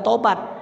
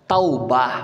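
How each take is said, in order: First: The word ends with a t sound. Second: The word ends with an h sound. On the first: The speaker calls it wrong. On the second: The speaker calls it right. "harusnya dibaca huruf H bukan T"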